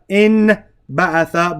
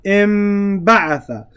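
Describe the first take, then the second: First: The nasal before the b is an n sound. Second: The nasal before the b is an m sound. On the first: The speaker calls it wrong. "not in ba'atha" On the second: The speaker calls it right. "We're going to pronounce it like meme"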